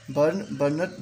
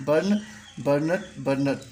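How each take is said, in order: First: Said in the usual way. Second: Slow pronunciation demo. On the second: Shown as a demonstration. Teacher drilling students on verb forms, slow and careful. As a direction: slowly give burn, burnt one form at a time. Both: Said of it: "मैं इसको pronunciation करते जाऊंगा".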